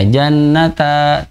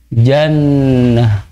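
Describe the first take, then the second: First: The word ends with a long a vowel. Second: The word ends with an h sound. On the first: The speaker calls it wrong. "tidak dibaca jannata panjang" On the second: The speaker calls it right. "tapi dibacanya jannah"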